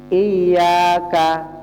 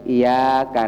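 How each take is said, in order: First: The y sound is held long and doubled. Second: The y sound is short and single. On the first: It means you alone. The speaker calls it right. "ya-nya kan tasydid kan?" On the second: It means the light of the sun. The speaker calls it wrong. "Kalau tasydidnya hilang"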